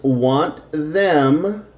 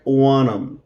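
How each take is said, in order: First: Said in the usual way. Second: "want 'em" blended to "wan-em"; casual spoken "want 'em"; reduced form. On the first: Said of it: "will be combined together". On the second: Shown as a demonstration. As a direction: drop the t and th, "want 'em" as one unit. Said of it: "it will sound like".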